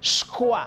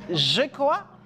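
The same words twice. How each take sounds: First: The j sound is assimilated and devoiced. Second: The j sound is fully voiced. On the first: "puede salir como je crois" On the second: "se puede decir je crois"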